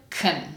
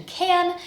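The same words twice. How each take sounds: First: KUN with no vowel; reduced can. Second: CAN with its full nasal vowel; dictionary pronunciation. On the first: Teacher shows real life usage, reduced can. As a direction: squeeze KUN to k plus n. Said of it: "I will reduce the word to kun". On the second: Teacher contrasts with real life, full dictionary can. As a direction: say CAN unreduced, vowel and all. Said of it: "expecting to hear the dictionary pronunciation". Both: Shown as a demonstration.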